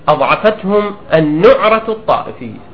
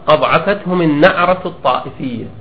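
First: The middle word uses the accepted vowel pattern. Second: The middle word uses the criticized vowel pattern. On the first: The word means sectarian fanaticism. The speaker calls it right. "والصواب أن يقال" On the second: The word would mean a nasal sound. The speaker calls it wrong. "الخطأ أن يقال"

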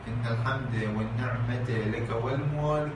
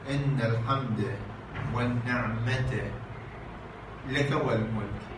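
First: The words run on together without any pause. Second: There is a pause after the word 'والنعمة'. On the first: The phrase is merged to avoid stopping. "يعني يدمجون الجملة، لا يقفون" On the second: The phrase is cut at a vowel-ending word. "يقولون هكذا ... فيقفون على ماذا؟ إن الحمد والنعمة"

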